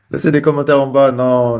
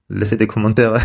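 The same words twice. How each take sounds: First: Laughing through it, a touch higher. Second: Said in the usual way. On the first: Real, not acted. Vlogger laughing as he begs viewers for comments. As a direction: giggle while asking for comments.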